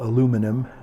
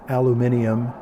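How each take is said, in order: First: It is said with an American pronunciation. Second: It is said with a British pronunciation. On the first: "instead of" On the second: "I'm a little bit of an Anglophile, so sometimes I say things like aluminium"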